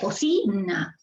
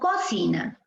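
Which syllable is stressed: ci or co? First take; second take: ci; co. First: The stress is on the middle syllable. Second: The stress is on the first syllable. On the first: The speaker calls it right. "Pero es cocina, cocina. Allí está la fuerza de voz" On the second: The speaker calls it wrong. "Si fuese en co, diríamos cocina"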